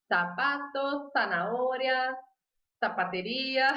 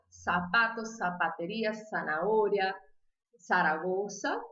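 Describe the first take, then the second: First: Sapato, zanahoria, zapateria with a th sound, slowly; Spanish lisp, z as th. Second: Sapato, zapateria, zanahoria, Zaragoza all with a clear s; z said like s, Latin American way; seseo, every z as s. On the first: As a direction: say the s and z as th, tongue between teeth. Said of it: "tipo língua presa". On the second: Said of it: "O Z tem som de S". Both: Shown as a demonstration.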